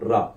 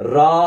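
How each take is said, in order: First: The vowel is reduced and barely heard. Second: The vowel is fully pronounced. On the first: The speaker calls it right. "Reduce நோட்டா உச்சரிக்கணும்" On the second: The speaker calls it wrong. "ரா அப்படின்னு சொல்லி உச்சரிக்க கூடாது"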